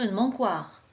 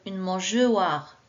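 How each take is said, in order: First: The g is hard, like in go. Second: The g is soft, like the j sound. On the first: "Si je ne mets pas le E" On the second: "je devrais lire"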